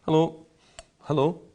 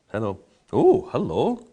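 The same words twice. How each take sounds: First: Mock greeting. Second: Louder hello with a delighted oh and rising ends; play-acting finding a secret in the glass; discovering surprise. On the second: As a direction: greet the hidden flavour as you suddenly find it. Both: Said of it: "only by going".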